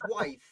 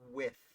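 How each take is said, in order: First: The name has a long 'eye' vowel, rhyming with scythe. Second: The name has a short 'i' vowel, rhyming with myth. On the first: The speaker calls it wrong. "It's not George Wythe, as I have put said in dozens of videos" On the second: The speaker calls it right. "It is With"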